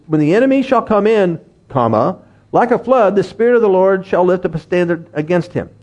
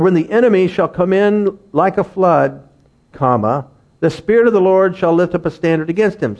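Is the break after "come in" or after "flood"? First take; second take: after come in; after flood. First: The break comes after "come in". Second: The break comes after "flood".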